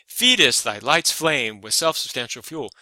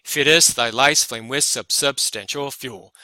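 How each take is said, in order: First: FEED-est hit on the first syllable, then LIGHT'S, FLAME; changed rhythm. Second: "Feedest" wrongly stressed on the second syllable, feed-EST thy LIGHT'S; forced iambic stress. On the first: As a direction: recite it with the stress up front on "Feedest". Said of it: "This rhythm changes". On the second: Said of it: "you would not say". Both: Shown as a demonstration.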